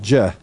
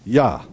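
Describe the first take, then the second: First: It starts with a j sound. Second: It starts with a y sound. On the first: The speaker calls it wrong. "That's why we know it's not Jeh" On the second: The speaker calls it right. "it's Yah"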